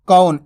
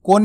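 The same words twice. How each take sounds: First: कौन with an open au glide; कौन, clearly au rather than o; correct pronunciation. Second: कौन said as "kon", pure o; कौन with o, as the mistake; wrong pronunciation demo. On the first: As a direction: say कौन as k-au-n, vowel stretched. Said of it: "इस तरीके से ही पढ़ना है". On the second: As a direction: flatten the au of कौन into a round o. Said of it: "कौन नहीं पढ़ना". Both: Shown as a demonstration.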